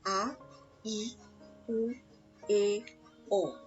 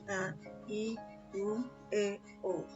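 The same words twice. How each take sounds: First: Each vowel is articulated clearly and distinctly. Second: The vowels are mumbled without clear articulation. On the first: The speaker calls it right. "Kalian harus jelas" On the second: The speaker calls it wrong. "Bukan sekedar berbunyi. ... Itu tidak jelas"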